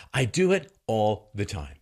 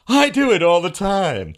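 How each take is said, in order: First: Said in the usual way. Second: Loud, slow, high sneering Scott; prejudicial mocking. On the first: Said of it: "repeated plain". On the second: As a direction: drag it out like a smug fool. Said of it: "that was prejudicial mocking".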